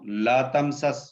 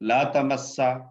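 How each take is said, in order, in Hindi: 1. दो s की आवाज़ें एक स्वर से अलग होती हैं। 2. दोहरा s एक लंबी आवाज़ में मिल जाता है।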